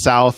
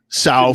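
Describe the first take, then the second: First: It is said with a standard accent. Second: It is said with a Cockney accent.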